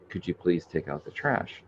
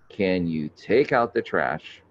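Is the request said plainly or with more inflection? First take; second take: plain; inflected. First: It is said as a plain, simple request. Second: It is said with more inflection and pointed tone.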